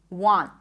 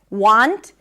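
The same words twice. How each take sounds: First: The final T is not released. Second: The final T is clearly released. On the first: "If you don't want to pop the T" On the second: "I am popping the T"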